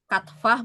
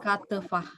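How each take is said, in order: First: The t and f sounds run together. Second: A vowel separates the t and f sounds. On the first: The speaker calls it wrong. "bukannya jadi katfah" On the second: The speaker calls it right. "tapi katefah"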